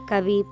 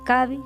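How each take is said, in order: First: The final vowel is long. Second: The final vowel is short. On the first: The speaker calls it wrong. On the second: The speaker calls it right.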